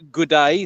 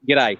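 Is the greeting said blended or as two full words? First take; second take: full; blended. First: Two full words with a long oo sound. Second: One quick blended word with no oo sound. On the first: The speaker calls it wrong. "it's not good day, so there's no, there's no ooh or" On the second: The speaker calls it right. "it's a quick"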